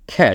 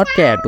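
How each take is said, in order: First: CAT starting with a breathy Bengali খ sound; CAT with an aspirated "kh" onset. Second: CAT with no puff of air after the K; CAT with a hard, puffless K; unaspirated K in CAT. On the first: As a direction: say CAT as "khat", with a puff after the K. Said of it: "খ দিয়ে উচ্চারণটা হবে". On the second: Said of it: "not cat উচ্চারণ". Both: Shown as a demonstration.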